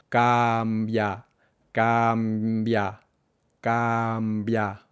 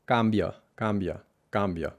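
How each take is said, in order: First: "cambia" slow, with a full clear final "a"; exaggerated clear vowels. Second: "cambia" with the last "a" swallowed, English-style; reduced final vowel. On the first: Teacher showing the student an exaggerated, slow "cambia". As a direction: overarticulate "cambia", every vowel crisp. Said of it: "exageramos la claridad o la brevedad de las vocales". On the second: Teacher imitating an English speaker's "cambia" with a weak final vowel. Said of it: "reducir la última vocal". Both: Shown as a demonstration.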